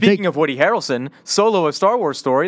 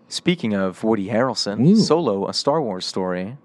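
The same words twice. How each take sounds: First: The phrase is said at a normal, quicker pace. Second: The phrase is said slowly in a deeper voice.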